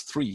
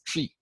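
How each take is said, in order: First: Said in the usual way. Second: "tree" for three, plain t at the start. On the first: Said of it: "He says tree". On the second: Retold or imitated. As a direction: say "tree" with a hard t instead of th. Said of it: "he can't even pronounce three".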